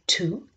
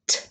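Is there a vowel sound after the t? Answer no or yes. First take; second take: yes; no. First: A vowel sound follows the t. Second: The t is said alone, with no vowel. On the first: The speaker calls it wrong. "or two" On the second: The speaker calls it right. "just t"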